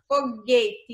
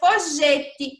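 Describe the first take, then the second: First: The g is a hard sound like in go. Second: The g is a soft sound like in gente. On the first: The speaker calls it right. "Você consegue ouvir o som do U saindo da minha boca?" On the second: The speaker calls it wrong. "e se eu tirasse o U?"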